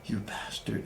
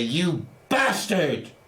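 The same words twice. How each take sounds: First: It is whispered with almost no voice. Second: It is said loudly and forcefully.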